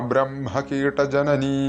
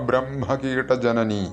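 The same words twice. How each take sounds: The two takes are said the same way.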